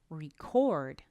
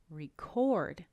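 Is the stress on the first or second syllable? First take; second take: second; second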